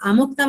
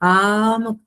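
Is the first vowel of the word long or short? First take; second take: short; long. First: The first vowel is short. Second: The first vowel is long. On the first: It gives a different meaning. The speaker calls it wrong. "అముక్తం అంటే వేరే అర్థం వచ్చేస్తుంది" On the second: It means worn and then given away. The speaker calls it right. "మళ్ళీ దీర్ఘం పలకాలి"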